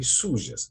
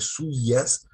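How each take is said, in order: First: The middle consonant is a sh-like sound. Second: The middle consonant is a soft y sound. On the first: This is how people from the River Plate say it. "dizemos aqui sujas" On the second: This is the general Spanish way of saying it. "em lugar de sujas"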